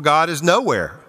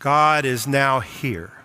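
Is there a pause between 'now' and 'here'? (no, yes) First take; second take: no; yes. First: It is said quickly with no pause inside. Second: It is said slowly with a break after now. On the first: God is absent. The speaker calls it wrong. "rather glibly, without pausing" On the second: God is present at this moment. The speaker calls it right. "Read it slowly"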